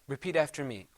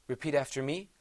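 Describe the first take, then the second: The two takes are said the same way.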